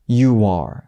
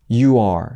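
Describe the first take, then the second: No difference in how they are said.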